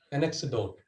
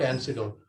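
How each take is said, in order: First: "anecdote" given as the right word; corrected pronunciation. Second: "antidote" cited as the mistake; mispronounced word. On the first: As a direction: say "anecdote" with a k sound, correcting yourself. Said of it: "So please correct". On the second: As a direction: say "antidote" as the wrong word to avoid. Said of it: "not antidote". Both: Shown as a demonstration.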